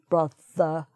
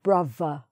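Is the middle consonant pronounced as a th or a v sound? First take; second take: th; v. First: The middle consonant is a th sound. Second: The middle consonant is a v sound. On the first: "instead of pronouncing TH" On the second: "they make a V sound instead"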